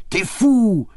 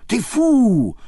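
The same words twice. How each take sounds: First: High, loud French exclamation; excited cry. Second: Even higher, loud French exclamation; excited cry. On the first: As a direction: fling it at him gleefully. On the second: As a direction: repeat it, rising further. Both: A narrator's reading. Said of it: "She got so excited".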